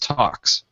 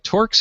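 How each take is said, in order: First: The name is said without an R sound. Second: The name is said with an R sound. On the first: The speaker calls it right. "It's talks" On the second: The speaker calls it wrong. "I keep trying to call it torques"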